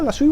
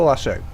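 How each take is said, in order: First: First option, "lasso" ending in oo; "lasso" rhyming with "shoe"; lasso as "lassoo". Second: Second option, "lasso" ending in oh; "lasso" rhyming with "go"; lasso as "lassoh". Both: Shown as a demonstration. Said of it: "Is it a lasso or a lasso?".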